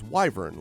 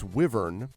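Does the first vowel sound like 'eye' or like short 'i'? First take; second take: eye; short i. First: The first vowel sounds like the letter Y. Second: The first vowel is a short i sound.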